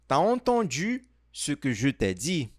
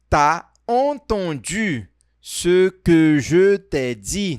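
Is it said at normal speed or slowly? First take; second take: normal speed; slowly. First: It is said at normal speed. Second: It is said more slowly.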